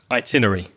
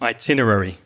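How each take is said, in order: First: The word is said with four syllables. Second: The word is said with five syllables. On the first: "I've heard it said like this" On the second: "Yeah, I agree"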